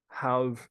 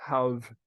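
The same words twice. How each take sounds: No difference in how they are said.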